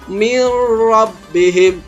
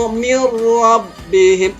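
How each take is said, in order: First: The n merges into a doubled r sound. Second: The same.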